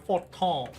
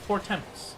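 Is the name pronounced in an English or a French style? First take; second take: French; English. First: The name is given a French-style pronunciation. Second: The name is given an English-style pronunciation. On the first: "I assumed it was French, and so probably like a forton" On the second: "But I always said it for temps"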